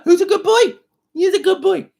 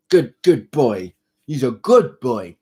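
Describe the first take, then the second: First: Much higher squeaky coo. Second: Slow praise for the cat; praising the cat. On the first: Squeaky high coo praising the kitten on his lap. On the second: Praising the kitten slowly for good behaviour. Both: Real, not acted.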